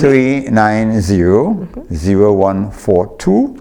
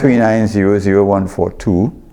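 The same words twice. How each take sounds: First: The number is said more slowly. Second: The number is said at normal speed.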